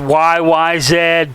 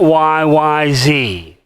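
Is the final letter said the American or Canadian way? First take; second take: Canadian; American. First: The final letter is said the Canadian way. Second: The final letter is said the American way. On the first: The speaker calls it right. "It's Y Y Z, people" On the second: The speaker calls it wrong. "not Y Y Z"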